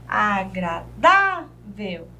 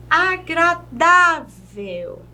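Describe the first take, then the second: First: "Agradável" lower, slow, with gaps: a, gra, dá, vel; syllable by syllable. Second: "Agradável" slow, DÁ stretched and punched; penultimate stress. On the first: Teacher counting syllables, "Agradável" in slow separate beats. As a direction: break "Agradável" into syllables, strong dá. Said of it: "Nós temos a última sílaba". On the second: Teacher showing a paroxytone, "Agradável" slowly with DÁ strong. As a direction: draw out the dá in "Agradável". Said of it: "a penúltima sílaba como sílaba tônica". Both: Shown as a demonstration.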